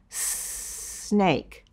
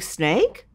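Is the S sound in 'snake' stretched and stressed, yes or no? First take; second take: yes; no. First: The S sound is said louder and held longer. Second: The S sound is said at normal strength and length. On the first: "putting a stronger emphasis on the target sound" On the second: "saying it normally"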